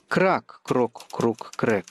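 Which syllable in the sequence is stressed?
крак. The stress falls on the first syllable, крак.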